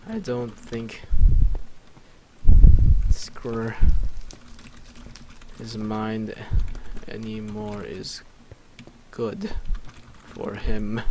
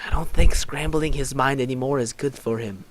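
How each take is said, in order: First: Broken up by long pauses; slow and halting. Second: Flowing, louder, slightly raised delivery; in-character objection. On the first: Real, not acted. Player composing a line aloud, slow and halting. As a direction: piece it out slowly, bit by bit. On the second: Acted. Player's character objecting about Zane's mind, flowing objection. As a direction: say it as one unbroken line, projected. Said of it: "I was like".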